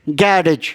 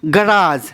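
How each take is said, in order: First: It is said with a British pronunciation. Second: It is said with an American pronunciation.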